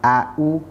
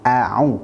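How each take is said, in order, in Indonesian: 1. Kedua suku kata diawali dengan hentian glotal biasa. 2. Hentian glotal biasa, lalu bunyi tenggorokan yang ditekan. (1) "dibaca dengan hamzah yang sama" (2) "pastikan huruf pertama dan huruf keduanya dibaca dengan cara baca yang benar"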